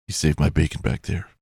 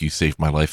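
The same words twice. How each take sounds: First: Noir detective. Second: Said in the usual way. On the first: Shown as a demonstration. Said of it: "That's my detective voice".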